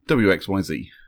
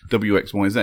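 First: The last letter is said as zee. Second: The last letter is said as zed. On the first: This is how American speakers say it. "they say T-U-V, W-X-Y-Z. There you go. And it rhymes" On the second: This is how British speakers say it. "we say W-X-Y-Z, and that doesn't rhyme"

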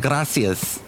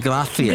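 First: The s sounds are a plain hissed s. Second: The s sound is lisped like a th. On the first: "They don't say gracias" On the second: "They say gracias. ... It's like they got a lisp"

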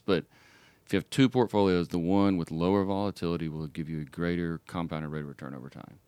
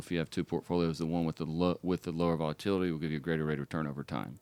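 First: It is said slowly. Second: It is said fast.

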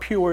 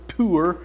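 First: The word sounds like 'pure', with a y-glide. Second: The word sounds like 'poor', without a y-glide. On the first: The speaker calls it wrong. "It's not pure" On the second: The speaker calls it right. "it's Pur"

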